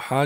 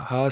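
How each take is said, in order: First: ہا as a loose, airy 'h' from the chest. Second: ہا as a tight, clean 'h' from the throat. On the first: Teacher showing the wrong letter, chesty ہا. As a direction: let ہا come from the chest, not throat. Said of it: "آواز سینے سے نہیں نکالنی". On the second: Teacher contrasting two letters, throaty ہا. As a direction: make ہا in the throat, not the chest. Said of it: "بالکل ہم نے گلے سے ہی". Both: Shown as a demonstration.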